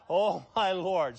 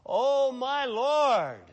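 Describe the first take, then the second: First: It is said at a quieter, normal volume. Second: It is said loudly.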